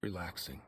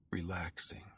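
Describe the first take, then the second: First: Said in the usual way. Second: Breathy whispered relaxing. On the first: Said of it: "Relaxing (repeated whispered)". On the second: Shown as a demonstration. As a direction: whisper it to yourself to calm down. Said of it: "Relaxing (first take voiced)".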